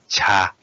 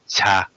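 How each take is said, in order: First: The first consonant is soft, low and long. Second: The same.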